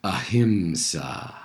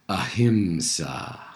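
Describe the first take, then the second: First: The word is spoken aloud in full voice. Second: The same.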